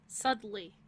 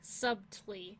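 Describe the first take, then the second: First: The b is silent, as in suttly. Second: The b is sounded, as in sub-tly. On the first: The speaker calls it right. "but it's subtly" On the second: The speaker calls it wrong. "because it's sub and then TLY"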